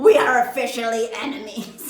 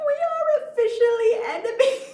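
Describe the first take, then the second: First: Loud, laughing as it's repeated; laughing re-read. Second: High and loud, cracking up mid-line; laughing through it. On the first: Repeating her line to viewers, loud and laughing. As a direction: say it again, cracking up. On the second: Reading her message aloud and cracking up with laughter. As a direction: read it while breaking into laughter. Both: Real, not acted. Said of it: "who talks like that".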